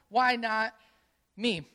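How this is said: It sounds like a self-pitying, complaining question.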